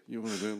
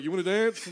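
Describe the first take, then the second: First: Soft, understated offer; muted invitation. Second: High-pitched, eager offer; eye-signalled invitation. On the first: Tipsy comic inviting someone to dance, soft muted try. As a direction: say it softly, barely asking. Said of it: "I was like". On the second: Tipsy comic signalling for a dance, high mock invitation. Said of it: "making my eyes like". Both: Retold or imitated.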